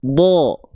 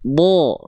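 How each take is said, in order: First: The vowel sounds dark and heavy, close to O. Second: The same.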